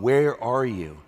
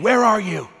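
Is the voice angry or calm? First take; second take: calm; angry. First: It is asked in a calm, unraised voice. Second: It is screamed in an angry voice.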